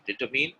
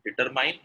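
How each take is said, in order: First: DETERMINE with the last syllable like "min"; correct pronunciation. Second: DETERMINE with the last syllable like "mine"; wrong pronunciation. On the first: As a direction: say DETERMINE as "dih-TUH-min". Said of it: "is correct". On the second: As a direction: say DETERMINE ending in a long "mine", rising. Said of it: "is wrong". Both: Shown as a demonstration.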